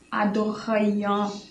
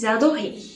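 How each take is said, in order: First: The ending is sounded as an extra syllable. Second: The ending is silent after the vowel. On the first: The speaker calls it wrong. "Esse aian aí não é pronunciado, não é aian" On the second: The speaker calls it right. "Não, eles adoraient, simplesmente"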